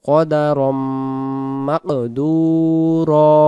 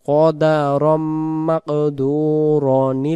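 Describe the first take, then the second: First: The last word ends in a long a. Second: The last word ends in an n sound. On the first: The reciter stops here. "আর দম ছেড়ে দিলে কদারাম মাকদুরা এটা এক আলিফ টান দেব" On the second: The recitation continues without a stop. "আর যদি দমটা ধরে যায় তখন আমরা বলতে পারবো"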